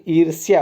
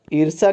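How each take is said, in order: First: ईर्ष्या as eer-syaa, with a y; correct form ईर्ष्या. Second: ईर्षा as eer-saa, no y; wrong form ईर्षा. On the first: Teacher giving the correction, ईर्ष्या with clear y. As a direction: sound the y glide in ईर्ष्या. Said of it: "ईर्ष्या होगा". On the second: Teacher rejecting the mistake, ईर्षा without the y. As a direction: end ईर्षा straight on saa. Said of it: "ईर्षा नहीं". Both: Shown as a demonstration.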